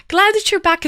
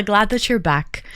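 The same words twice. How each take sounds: First: Higher, brighter burst of welcome; enthusiastic welcome. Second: Said in the usual way. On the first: Real, not acted. Streamer welcoming a returning viewer back, enthusiastic. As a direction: repeat it with real enthusiasm.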